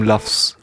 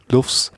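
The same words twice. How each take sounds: First: "lufs" with the open vowel of "luffs". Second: "Lufs" with the short oo of "book"; lufs like "loofs". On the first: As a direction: say "lufs" to rhyme with "puffs". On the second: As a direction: try "Lufs" with a rounded vowel. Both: Shown as a demonstration. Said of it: "I don't know".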